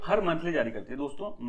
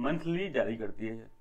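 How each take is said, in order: First: Said in the usual way. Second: "monthly जारी करती है" repeated slow, low and soft; slow emphatic repeat. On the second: Shown as a demonstration. Teacher stressing to viewers that it comes monthly, slow low repeat. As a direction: lean into "monthly" with a slow drop to drive it home.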